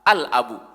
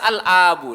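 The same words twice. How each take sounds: First: The vowel after the hamza is kept short. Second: The vowel after the hamza is drawn out long. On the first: The speaker calls it right. "Hamzahnya tidak panjang" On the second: The speaker calls it wrong. "laisa al abu la"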